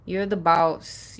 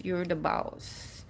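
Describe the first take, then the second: First: Slow, firm and steady; planted and sure; firm declaration. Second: Much softer, slow repeat; hushed, slow affirmation; soft echo. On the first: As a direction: state it like a boss. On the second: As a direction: let it sink in quietly. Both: Shown as a demonstration. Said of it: "take a stand".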